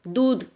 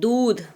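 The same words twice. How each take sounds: First: The u vowel is short. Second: The u vowel is long. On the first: The speaker calls it wrong. "छोटा ऊ नहीं" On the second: The speaker calls it right. "बड़ा ऊ लाएगा"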